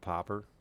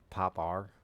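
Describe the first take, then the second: First: The last syllable sounds like 'er'. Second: The last syllable sounds like 'ar'. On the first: "they don't just call it a popper" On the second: "they call it popar because of the brand"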